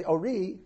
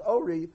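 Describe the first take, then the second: First: "ori" with stress on "ri"; stress on last syllable. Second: "ori" with stress on the O; stress on first syllable. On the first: Teacher showing what was required, "ori" stressed at the end. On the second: Teacher showing the reader's mistake, "ori" stressed up front. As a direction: hit the start of "ori", let "ri" fall. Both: Shown as a demonstration. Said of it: "when he's supposed to say ori".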